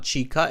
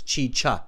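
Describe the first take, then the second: First: The middle consonant is a hard k sound. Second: The middle consonant is a ch sound. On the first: The speaker calls it wrong. "It's not chica" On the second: The speaker calls it right. "It's both cha. Chi"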